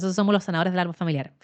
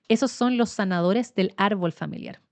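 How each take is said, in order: First: It is said fast. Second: It is said slowly.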